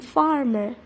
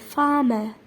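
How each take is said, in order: First: The R sounds are pronounced. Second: The R sounds are dropped. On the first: "instead of saying farmer" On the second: "they drop the R sound before consonant and at the end of word"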